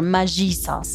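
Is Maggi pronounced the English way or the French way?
French. Maggi is pronounced in a French way.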